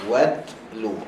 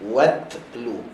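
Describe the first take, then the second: The two takes are said the same way.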